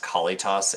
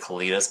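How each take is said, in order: First: The final syllable has a heavy T, like toss. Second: The final syllable has a light T sound. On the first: The speaker calls it wrong. "It's such a heavy T, right? Like toss" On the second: The speaker calls it right. "I pronounce it Kalitas"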